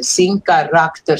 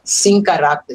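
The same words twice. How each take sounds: First: Sem caráter spelled out slowly, syllable by syllable; counting syllables in sem caráter. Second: Said in the usual way. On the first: Shown as a demonstration. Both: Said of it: "the last verso falta um sílaba".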